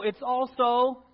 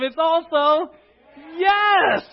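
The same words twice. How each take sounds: First: Said in the usual way. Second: High, loud, joyful burst; with enthusiasm. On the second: Shown as a demonstration. Preacher asks the congregation for enthusiasm, excited shout. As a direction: throw it out with full enthusiasm. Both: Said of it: "now say it with enthusiasm".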